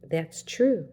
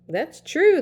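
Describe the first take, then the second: First: It is said quietly and gently. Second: It is said at normal loudness. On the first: The speaker calls it right. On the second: The speaker calls it wrong.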